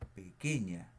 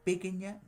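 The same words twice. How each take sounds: First: The stress falls on the second-to-last syllable. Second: The stress falls on a different syllable. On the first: The speaker calls it right. "Cargo la voz aquí. Digo pequeña" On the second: The speaker calls it wrong. "No digo pequeña"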